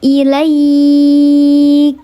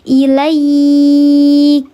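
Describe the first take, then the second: First: The 'ai' sound is drawn out long. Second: The 'ai' sound is drawn out long.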